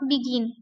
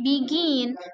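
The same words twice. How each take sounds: First: The stress is on the first syllable. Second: The stress is on the second syllable. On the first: The speaker calls it wrong. "It's not begin" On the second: The speaker calls it right. "tapi begin"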